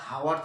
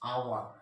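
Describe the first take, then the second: First: The word begins with an audible h sound. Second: The word begins directly with a vowel sound. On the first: The speaker calls it wrong. "আমরা হাওয়ার তো বলবো না নিশ্চয়ই" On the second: The speaker calls it right. "আমরা কি বলবো? আওয়ার।"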